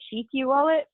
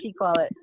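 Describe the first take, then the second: First: The name has two syllables, ending in kyu. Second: The name has one syllable, like chic. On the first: This is how the developers in India say it. "they call it Shikyu wallet" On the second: This is how the speaker says it. "it's pronounced like C H I C"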